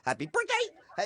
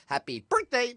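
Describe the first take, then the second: First: "Happy birthday" shot way up high; very high-pitched mock "Happy birthday"; changed emphasis. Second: "Happy birthday" in a raised, put-on voice; lightly squeaky-high "Happy birthday"; shifting emphasis. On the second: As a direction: say "Happy birthday" higher, as an oddball greeting. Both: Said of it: "he would change the emphasis".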